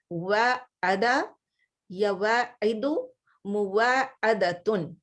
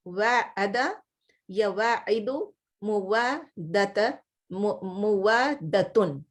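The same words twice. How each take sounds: First: Slow, syllable-by-syllable Arabic forms; slow demo of forms. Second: Slow, careful Arabic forms again; slow repeat of forms. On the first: Teacher drilling verb forms for her Arabic class, slow and deliberate. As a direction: spell out each form slowly for students. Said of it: "demonstrating verb forms". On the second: Teacher repeating the verb forms for her class, slow and careful. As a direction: drill the forms slowly for students. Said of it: "repeating verb forms". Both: Shown as a demonstration.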